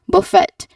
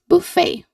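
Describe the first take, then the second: First: The second syllable sounds like 'fet'. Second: The second syllable sounds like 'fair'. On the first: The speaker calls it wrong. "that is not buffet" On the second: The speaker calls it right. "it is buffet"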